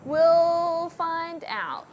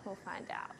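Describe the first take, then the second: First: Very slow, higher, stretched words; drawn-out singsong. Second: Whispered aside. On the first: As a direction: stretch every word out playfully. Drawn-out mock-ominous repeat of own phrase. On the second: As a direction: whisper it very softly. Same words again, under breath. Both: Pretend.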